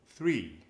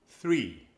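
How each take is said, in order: Both takes have the same delivery.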